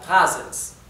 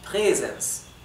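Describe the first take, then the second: First: The first vowel is an open 'a' sound. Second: The first vowel sounds almost like 'e'. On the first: The speaker calls it wrong. "Si la A no tuviera la diéresis, esto se pronunciaría" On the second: The speaker calls it right. "como tiene la diéresis, se pronuncia"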